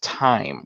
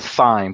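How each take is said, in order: First: The word starts with a plain t sound. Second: The word starts with a th sound. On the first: The speaker calls it right. "it's pronounced time with a, a silent uh, uh, H" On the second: The speaker calls it wrong. "for me, I pronounce it thyme"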